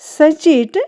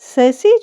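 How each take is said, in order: First: The word ends with a 't' sound. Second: The word ends with a vowel sound. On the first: The speaker calls it wrong. "ये wrong है" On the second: The speaker calls it right. "वो हमारा right pronunciation है"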